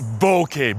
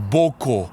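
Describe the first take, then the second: First: The word ends in an 'eh' vowel. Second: The word ends in an 'oh' vowel. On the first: The speaker calls it right. "It is bokeh" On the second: The speaker calls it wrong. "Or boko, ... It is wrong"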